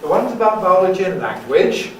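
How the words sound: The voice rises at the end. "That's a rise"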